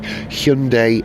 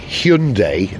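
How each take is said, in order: First: The name rhymes with Monday. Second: The name does not rhyme with Monday. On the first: The speaker calls it right. "it's got to rhyme with Monday" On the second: The speaker calls it wrong.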